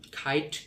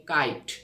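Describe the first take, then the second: First: খাইট with a breath after the "k"; British-style "kite". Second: কাইট with a plain "k", no aspiration; England-style "kite". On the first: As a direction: say খাইট with an aspirated "kh". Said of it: "এটা হলো British". (British উচ্চারণে খাইট) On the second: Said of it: "England উচ্চারণ". (ইংল্যান্ডের উচ্চারণে কাইট) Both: Shown as a demonstration.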